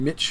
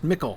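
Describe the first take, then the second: First: The middle consonant is a soft 'ch' sound. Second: The middle consonant is a hard 'k' sound. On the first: This is the older Anglo-Saxon pronunciation. "in Anglo-Saxon would have been Mitch, like the C becomes soft" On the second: This is the later English place-name pronunciation. "should be pronounced Mickle"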